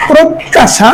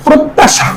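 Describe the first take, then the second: First: প্রত্যাশা higher, said "prot-ta-sha"; doubled t. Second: Said in the usual way. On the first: Shown as a demonstration. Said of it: "তদ্বিত্ত উচ্চারণ হবে". (প্রত্যাশা "প্রোত্-তাশা" উচ্চারণ) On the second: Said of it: "উচ্চারণ হবে".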